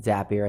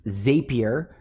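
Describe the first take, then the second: First: "Zapier" said as ZAP-ee-er; alternative pronunciation, short A. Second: "Zapier" said as ZAY-pee-er; long-A pronunciation. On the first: Giving students the other pronunciation, "Zapier" as ZAP-ee-er. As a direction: say "Zapier" with a short A, rhyming with "happier". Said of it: "as some people pronounce it". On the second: Listing needed tools for students, "Zapier" pronounced ZAY-pee-er. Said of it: "Or as some people pronounce it". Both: Shown as a demonstration.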